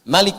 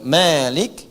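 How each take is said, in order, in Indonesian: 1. Vokal pertama pendek. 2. Vokal pertama panjang. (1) "begini, pendek"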